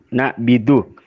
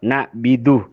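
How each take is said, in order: The two takes are said the same way.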